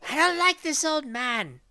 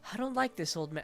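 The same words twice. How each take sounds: First: It is said in a higher, feminine voice. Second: It is said in a plain neutral voice.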